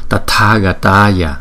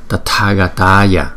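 Both takes have the same delivery.

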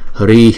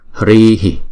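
First: It ends with only a slight breathy release. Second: A short extra vowel echoes after the final breath. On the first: The speaker calls it right. "Ở ngoài sau chúng ta hơi hạ cái hơi ra một chút xíu" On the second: The speaker calls it wrong. "chúng ta chỉ choàng chữ I ngắn thôi"

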